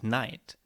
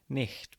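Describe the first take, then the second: First: The gh is silent, with no throaty sound. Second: A throaty friction sound comes before the t. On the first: This is the modern pronunciation. "words with silent G H's" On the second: This is the older pronunciation. "would have been pronounced something like nicht before"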